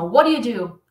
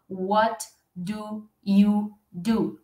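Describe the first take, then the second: First: The question is said quickly, words run together. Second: The question is said slowly, word by word. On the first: "diretona, assim, ó ... é uma pronúncia mais rápida" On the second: "dificilmente você vai escutar essa pergunta assim"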